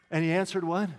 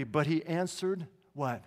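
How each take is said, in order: First: Answered rises, inviting the answer; rising prompt. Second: Slow, falling teaching question. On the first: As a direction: toss it to the congregation with a rising end. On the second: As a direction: drag it out and let it drop at the end. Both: Shown as a demonstration.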